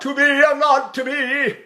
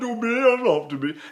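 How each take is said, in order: First: The voice is easy and the words are clear. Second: The voice sounds yawning with a raised soft palate. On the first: The speaker calls it right. "I can say the words as clear as a bell" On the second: The speaker calls it wrong. "I'll lift my salt palate, yawn, ... and the language is distorted"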